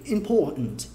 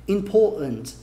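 No difference in how they are said.

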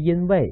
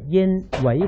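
First: The two syllables run together as one word. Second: A break separates the two syllables. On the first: It is the single word meaning because. The speaker calls it wrong. "不是因为" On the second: It means thereupon pretending to be. The speaker calls it right. "下面那字分开读啊"

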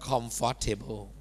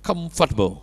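First: Every syllable is pronounced fully. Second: The middle syllable is almost dropped. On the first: The speaker calls it wrong. "คนไทยนี่ยังพูดว่า" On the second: The speaker calls it right. "แทบไม่ออกเสียงเลยเป็น"

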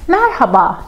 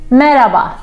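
First: The h sound in the middle is clearly pronounced. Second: The h sound in the middle is left out. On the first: This is the careful textbook form. "of course this is the right pronunciation" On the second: This is the everyday street form. "say it like a Turkish person"

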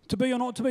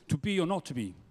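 First: It is said in a local Stratford accent. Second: It is said in classical English stage style.

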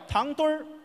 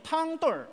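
First: It is said with a standard Mandarin accent. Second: It is said with a Tianjin local accent. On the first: "天津卫怎么叫？" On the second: "天津还有口音叫汤墩儿"

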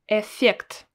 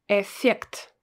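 Both takes have the same delivery.

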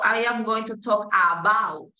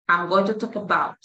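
First: 'I am' is said as two full words. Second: 'I am' is contracted into one syllable. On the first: The speaker calls it wrong. "Entonces tú no dices" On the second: The speaker calls it right.

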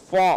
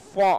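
The two takes are said the same way.

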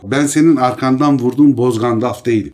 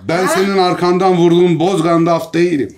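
First: The line is delivered in a calm, plain way. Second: The line is delivered in a furious, intense way.

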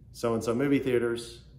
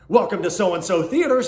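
First: It is said in a flat, bored tone. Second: It is said in a lively, enthusiastic tone.

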